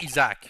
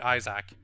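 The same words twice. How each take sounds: First: The name is said with a French pronunciation. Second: The name is said with an English pronunciation. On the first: "In French, it sounds like Isaac" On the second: "But in English, it's probably Isaac"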